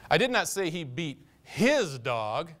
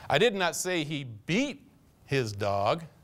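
First: The word 'his' is stressed. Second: The word 'beat' is stressed. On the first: He beat some other dog, but not his own. "He had a tendency to work over the neighbor's dog quite often" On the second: He mistreated the dog in other ways, but not by beating it. "Kicked him around once in a while, but never saw him beat him"

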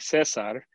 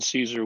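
First: It does not sound like the Roman name. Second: It sounds like the Roman name Caesar. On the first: "which is how I generally use it" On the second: "like the Roman Caesar with an EA"

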